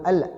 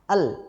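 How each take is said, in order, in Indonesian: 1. Lidah melepas l di akhir. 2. Lidah tetap menempel di l. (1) "Jangan al" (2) "nempel di langit-langit lam"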